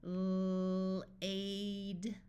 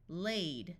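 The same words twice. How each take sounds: First: Long held L running into "aid"; sounded out. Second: Said in the usual way. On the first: Shown as a demonstration. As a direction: stretch "L-, aid" slowly by sound. Phonics teacher sounds out, then blends.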